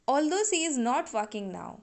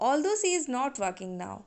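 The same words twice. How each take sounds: No difference in how they are said.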